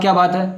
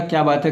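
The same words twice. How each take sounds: First: It is said in an angry, harsh tone. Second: It is said in a gentle, loving tone.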